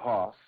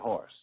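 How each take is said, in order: First: The word is said without an r sound. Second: The word is said with an r sound. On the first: This is how it is said in Georgia. "if you were in Georgia, you'd say" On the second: This is how it is said in New York. "in New York, you say"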